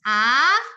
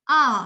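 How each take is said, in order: First: The vowel is said with a very wide mouth. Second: The vowel is said between rounded and wide. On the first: The speaker calls it wrong. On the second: The speaker calls it right. "Yang kita mau adalah yang di tengah-tengah"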